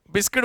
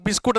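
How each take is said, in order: First: "बिस्किट" with a short i in the last syllable; the school-English "बिस्किट", ending in -kit; biskit pronunciation. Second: "बिस्कुट" with an oo in the last syllable; the everyday Hindi "बिस्कुट", ending in -koot; biskoot pronunciation. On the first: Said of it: "बिस्किट बोलते हैं". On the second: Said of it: "कुछ लोग बिस्कुट नहीं बोलते". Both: Shown as a demonstration.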